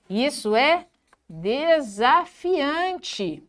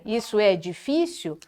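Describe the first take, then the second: First: DESAFIANTE bem devagar, sílaba por sílaba; ênfase positiva. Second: Desanimado. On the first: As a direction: estique "desafiante" com gosto. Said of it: "dar ênfase nas palavras positivas". ("desafiante" pausado e enfático) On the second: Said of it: "ao invés de dizer". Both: Shown as a demonstration.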